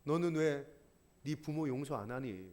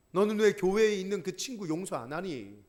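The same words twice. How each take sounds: First: Low, hushed plea from the cross; soft pleading question. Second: Said in the usual way. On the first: Pretend. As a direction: ask it softly, almost grieving. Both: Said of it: "십자가가 소리 지르고 있는 거예요".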